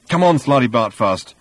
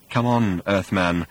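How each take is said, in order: First: Mildly nervous urging. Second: Understated anxious nudge; nervous. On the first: Ford picking at the old man's sleeve, nervous. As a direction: hurry him along, a hint of worry. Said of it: "said Ford nervously". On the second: Old man picking at Arthur's sleeve, nervous. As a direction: urge gently, a touch of nerves. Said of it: "said Slutty Bartfast nervously". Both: A narrator's reading.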